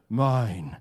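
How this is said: The word is said in a deep, gentle voice. The speaker calls it right. "Loving, deep, gentle voice"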